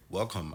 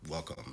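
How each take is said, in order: First: Nigerian accent. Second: Said in the usual way. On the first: Shown as a demonstration. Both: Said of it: "I can talk with a Nigerian accent".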